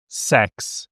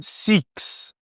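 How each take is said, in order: First: The vowel sounds like 'eh'. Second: The vowel sounds like a long 'ee'. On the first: "Também não é o som de E" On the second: "não é six, não é o som de I"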